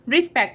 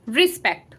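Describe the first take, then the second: First: The first vowel is an 'i' sound. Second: The first vowel is an 'i' sound.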